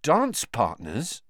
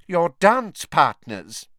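First: Slow, incredulous echo, rising at the end; dismayed question. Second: High, loud and very slow; coldly. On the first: Student echoing the professor as his insides shrivel, dismayed. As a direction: repeat it as a stunned question. Harry echoes her in dismay. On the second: Professor spelling it out for a slow student, coldly. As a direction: spell it out deliberately, one word at a time. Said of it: "she said coldly". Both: A narrator's reading.

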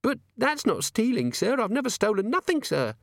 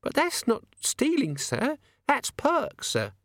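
First: Put-on high, anxious young maid voice; nervous maid. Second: High, slow insistent maid voice; indignant maid. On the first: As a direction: plead innocently as the maid. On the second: Acted. Maid insists, higher still.

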